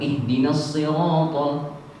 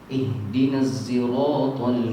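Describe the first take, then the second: First: Sirat begins with a heavy emphatic s sound. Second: Sirat begins with a z sound. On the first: "pakai sod" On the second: "pakai zai"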